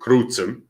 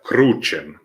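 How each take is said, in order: First: The middle consonant is said as ts. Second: The middle consonant is said as ch. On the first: "In classical Volga, you say crucem" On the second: "that's how you say it in ecclesiastical"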